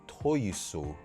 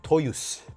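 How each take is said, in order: First: The final u vowel is fully pronounced. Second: The final u vowel is dropped. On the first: The speaker calls it wrong. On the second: The speaker calls it right.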